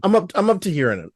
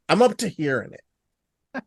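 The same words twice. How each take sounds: First: Said in the usual way. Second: Spelled out slowly; slow it right down, word by word; slow and deliberate. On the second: Real, not acted. Repeats the line more deliberately.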